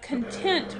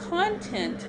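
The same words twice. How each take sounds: First: The stress is on the second syllable. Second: The stress is on the first syllable. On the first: It means happy with something. "which means happy with" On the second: It means what something contains. "the content of the recipe"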